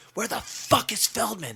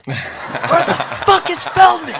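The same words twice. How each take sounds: First: Demanding question. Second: High, loud, slow retold yell, half laughing. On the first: Retold or imitated. [name] demands [name] side stage. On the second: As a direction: belt the second ask out like a rockstar losing patience. [name] repeats it, yelling.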